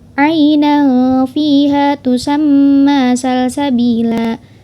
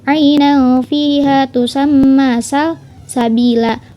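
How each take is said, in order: First: The last word is said without a pause. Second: A pause splits the last word into two. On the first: It names a spring in paradise. "Tanpa adanya jeda" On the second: It is read as a verb and a noun. "jeda di kalimat sal dan sabila"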